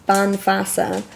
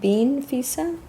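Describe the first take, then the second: First: The first syllable has a short 'a' vowel. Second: The first syllable has a long 'ee' vowel. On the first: The speaker calls it right. "pronounced Banfasa" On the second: The speaker calls it wrong. "I definitely pronounced it wrong"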